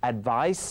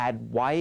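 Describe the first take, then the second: First: "advice" ending in a clear s sound; final S sounded. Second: "add ไว้", advice cut off without its s; final S dropped. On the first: Teacher correcting Thai learners, final S sounded. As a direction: keep the closing s audible on "advice". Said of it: "ไม่ใช่ add ไว้". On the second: Teacher showing learners the mistake, final S dropped. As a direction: say advice as Thai "add ไว้", ending on the vowel. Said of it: "ไม่ใช่". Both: Shown as a demonstration.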